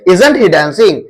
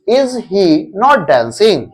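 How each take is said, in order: First: 'Is' and 'not' merge into one short word. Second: Every word is said fully, with 'not' separate. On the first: It sounds smarter and more natural. "उसी को short में बोलोगे" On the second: It is the traditional way of saying it. "सिंपल ऐसे बोलो"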